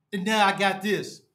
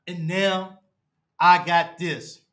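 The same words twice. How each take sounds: First: Said in the usual way. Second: "And now... I got this" with a long pause after "now"; slow heavy emphasis. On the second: Real, not acted. Fan to viewers after the loss, slow heavy emphasis. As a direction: lean hard on "I got this", slowed right down. Fan repeats line in dismay.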